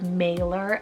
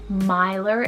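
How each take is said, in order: First: The name is said in an anglicized way. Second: The name is said in a Welsh way. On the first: "You could pronounce it as Mailer as well" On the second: "Maelor is the correct Welsh pronunciation"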